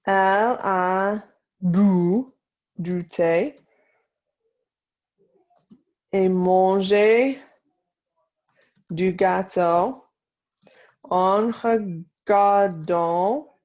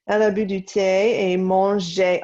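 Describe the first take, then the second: First: Slow French in short separated chunks; slow dictation. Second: Said in the usual way. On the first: Shown as a demonstration. Teacher to class copying the tea and cake sentence, slow dictation. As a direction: dictate phrase by phrase with long pauses. Dictation, later repeated at speed.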